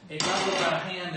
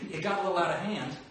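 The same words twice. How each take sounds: First: Louder, higher, fast Snake growl; gravelly Snake voice. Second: Snake voice. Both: Shown as a demonstration. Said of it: "here, this one".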